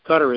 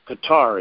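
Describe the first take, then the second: First: The name sounds just like cutter. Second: The name does not sound like cutter. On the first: The speaker calls it wrong. "Qatar is C-U-T-T-E-R, and that's a mosquito spray" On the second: The speaker calls it right. "it's not Qatar"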